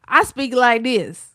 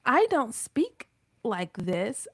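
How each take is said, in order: First: Southern twang. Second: Said in the usual way. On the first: Shown as a demonstration. Showing the AI how she really talks, loud Southern twang. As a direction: lean hard into her Southern accent, louder. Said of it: "all that Southern twang".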